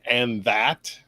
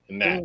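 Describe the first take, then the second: First: Both words are said in full. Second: It is squeezed into one short syllable 'n'at'. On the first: "instead of saying and that" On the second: "they say in that, like N apostrophe A T"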